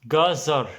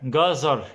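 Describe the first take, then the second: No difference in how they are said.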